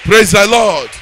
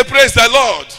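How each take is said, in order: First: Rousing shout to the crowd; loud call. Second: Louder repeated call. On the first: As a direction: demand the response loudly. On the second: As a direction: push harder the second time. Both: Real, not acted. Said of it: "I say".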